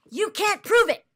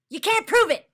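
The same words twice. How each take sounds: First: Loud, high, mocking the stock reply; angry mock echo. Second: Louder still, high shout of "prove"; angry shout. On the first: Streamer mocking chat's reply, angry and loud. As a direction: spit back the phrase in disgust. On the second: Streamer shouting chat's phrase back, furious. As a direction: yell it back at them, fed up. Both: Real, not acted. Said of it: "I'm getting angry".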